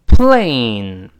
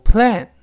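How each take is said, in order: First: "plane" loud and drawn out, long ay glide; correct plane. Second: "plan" with short e, like plen; mispronounced plane. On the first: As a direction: stretch the ay in "plane" before n. (“plane”双元音ei拉长) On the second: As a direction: cut the vowel short in "plan". (错读成短元音的“plan”) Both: Shown as a demonstration. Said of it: "不要读plan".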